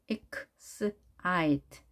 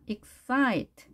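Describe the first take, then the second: First: Excite in slow separate sounds; piece-by-piece excite with pauses; sounded out. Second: Excite blended, higher on the ite syllable; stress on I. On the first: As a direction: break excite into ek, s, ite. Teacher sounds word out in pieces. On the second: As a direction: hit the I in excite. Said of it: "I에 강세가 있습니다". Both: Shown as a demonstration.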